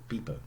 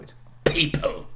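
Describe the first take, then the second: First: The p is said without a puff of air. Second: The p is said with a puff of air. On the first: The speaker calls it wrong. "they would say something like people" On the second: The speaker calls it right. "No, it's people"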